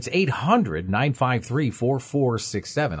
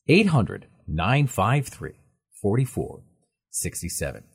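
First: The number is read at normal speed. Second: The number is read slowly.

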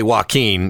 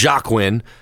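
First: The name starts with a W sound, wah-keen. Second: The name is read as spelled, starting with J. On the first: This is how the name is said. "we're going to say Joaquin" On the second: This is how the name is written. "it's spelled Joaquin"

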